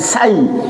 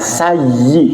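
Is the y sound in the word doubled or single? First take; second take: single; doubled. First: The y sound is single and light. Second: The y sound is doubled and pressed. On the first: The speaker calls it wrong. "bukan sayyi" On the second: The speaker calls it right. "Iya-nya itu ada tasydid, Pak, ditekan"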